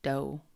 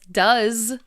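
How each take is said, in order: First: The vowel is a long O sound. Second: The vowel is a short U sound. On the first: It means multiple female deer. "with a long O, like this" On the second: It is the verb to do. "If it's the verb, the verb to do, then it's does, like this"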